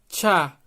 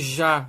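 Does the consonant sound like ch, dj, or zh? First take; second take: ch; zh. First: The consonant sounds like a light ch. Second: The consonant sounds like a soft zh. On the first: The letter starts a word. The speaker calls it right. "um som como se fosse um som de T C H, um som de tchá" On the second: This is the native language's sound. The speaker calls it wrong. "Esse já, já. Não é esse som"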